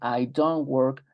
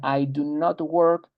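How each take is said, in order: First: Do and not merge into one short syllable. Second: Do and not are said as two full words. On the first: It is how native speakers talk every day. "lo común, lo natural es decir" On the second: It is the complete, formal form. "la forma completa es do not"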